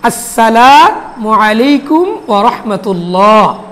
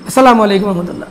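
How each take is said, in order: First: It is said slowly and carefully. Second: It is said fast and hurried.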